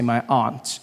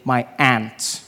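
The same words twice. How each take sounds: First: Aunt is said with the speaker's own, non-American vowel. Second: Aunt is said the local American way, like 'ant'.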